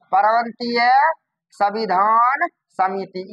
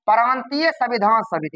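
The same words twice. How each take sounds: First: Slow, broken into separate words; dictating. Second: Said in the usual way. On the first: Shown as a demonstration. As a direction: pause after प्रांतीय and stretch संविधान. Teacher repeats name for class.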